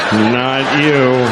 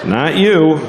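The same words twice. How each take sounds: First: Said in the usual way. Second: Higher, singled out at someone; pointed aside. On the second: Acted. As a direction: jab the word you at one person.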